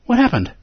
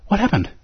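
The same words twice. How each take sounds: First: "What happened?" with happened lifted high and falling; "happened" stressed, question falling. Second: "What happened?" with "What" hit first and falling; "What" stressed, the rest dropping away. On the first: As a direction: lean on "happened". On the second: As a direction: punch the word "What". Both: Shown as a demonstration.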